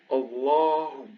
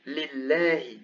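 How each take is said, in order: First: Allahu with a dark, heavy L and backed long "aa"; emphatic lam. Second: Lillahi with a light, clear L and fronted "ae"; non-emphatic lam. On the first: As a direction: say Allahu with a thick L. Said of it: "the lam is emphatic". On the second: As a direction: say lillahi with a thin L. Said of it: "here it's not emphatic". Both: Shown as a demonstration.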